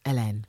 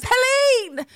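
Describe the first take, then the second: First: "Hélène" as eh-LEN, silent H; French pronunciation. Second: Very high, loud mock scream of a name. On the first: Shown as a demonstration. Host corrects herself, carefully saying Hélène the French way. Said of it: "supposed to be the French version". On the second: Host re-enacts two weeks of mispronouncing a name, screaming "Helene". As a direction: belt out "Helene" at the top of your lungs. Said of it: "screaming at the top of my lungs".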